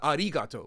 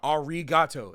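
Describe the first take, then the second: First: The R is a quick tapped, rolled-like R. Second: The R is a smooth English-style R. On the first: "kind of the closer to the rolled R" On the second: "I'm saying ra ra arigato"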